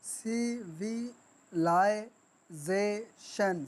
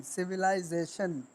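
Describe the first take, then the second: First: civilisation very slowly, a gap after each syllable; syllable-by-syllable split. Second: Said in the usual way. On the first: Shown as a demonstration. Teacher showing how to break words, civilisation in separate beats. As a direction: pause between सि, वि, लाइ, जे, शन. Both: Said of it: "sound आपने तोड़ने कैसे हैं".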